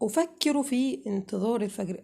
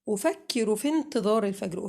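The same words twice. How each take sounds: First: A glottal stop is heard before 'intizar'. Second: No glottal stop is heard before 'intizar'. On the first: The speaker calls it wrong. "هل أنا كده قريت صح؟ لا طبعا" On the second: The speaker calls it right. "علشان أقرأ الجملة صح"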